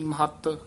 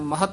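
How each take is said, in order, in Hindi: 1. बीच का व्यंजन दृढ़ता से और दोहरा बोला जाता है। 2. बीच का व्यंजन हल्के से और एकल बोला जाता है। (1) "ਕਸ ਕੇ ਉਚਾਰਨ ਕਰਨਾ ਹੈ" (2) "ਨਹੀਂ ਕਹਿਣਾ ਹੈ"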